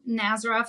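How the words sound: The name is said with an American pronunciation.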